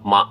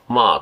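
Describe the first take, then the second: First: The syllable is short and cut off abruptly. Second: The pitch falls through the syllable. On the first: "止める音ですよね" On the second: "まあと下がるのと"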